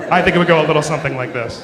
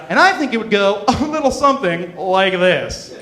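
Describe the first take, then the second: First: Rushed, faster repeat; quick mock setup. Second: Said in the usual way. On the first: Shown as a demonstration. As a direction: say it quickly, tongue in cheek. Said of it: "exactly what I'm about to do". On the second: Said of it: "when they say".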